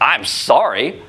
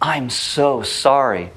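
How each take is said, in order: First: It sounds insincere and dismissive. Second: It sounds sincere and heartfelt.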